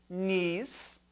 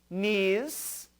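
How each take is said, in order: Both takes have the same delivery.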